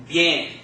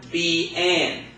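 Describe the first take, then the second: First: Bien in one syllable, like byen; correct diphthong. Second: Bien pulled apart into bee and en; two separate beats, B, N, for bien; wrong, split pronunciation. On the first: Teacher shows class the right bien, one run-together syllable. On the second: Teacher warns class against splitting bien, said as bee, en. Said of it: "So it's not". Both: Shown as a demonstration.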